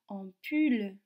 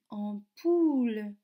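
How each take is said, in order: First: The last syllable has a French 'u' vowel. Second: The last syllable has an 'oo' vowel. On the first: The speaker calls it wrong. "je ne dis pas ampoule" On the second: The speaker calls it right. "je dis ampoule"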